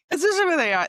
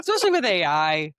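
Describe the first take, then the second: First: Much higher and louder on especially; excited repeat. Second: Said in the usual way. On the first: Shown as a demonstration. Agreeing with the host's point, repeating it higher and louder. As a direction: echo the phrase higher and louder, hitting especially.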